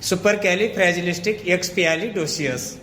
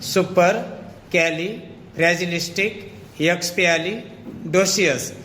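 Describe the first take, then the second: First: The word is said smoothly without breaks. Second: The word is split into separate chunks. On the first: "मग एकत्र तुम्ही त्याचा उच्चार करू शकता" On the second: "chunks म्हणजे त्याचे तुकडे तुकडे करूया"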